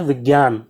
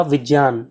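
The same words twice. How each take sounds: First: "विज्ञान" said vig-yaan with a hard g; common mispronunciation. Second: "विज्ञान" said vij-yaan with a clear "ज्य"; correct pronunciation. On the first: Teacher mimics common speakers: "विज्ञान" as vig-yaan. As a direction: imitate people saying "विज्ञान" as vig-yaan. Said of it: "ज़्यादातर लोग क्या बोलते हैं". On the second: Teacher models for students: "विज्ञान" as vij-yaan. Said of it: "इसका सही उच्चारण क्या होगा". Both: Shown as a demonstration.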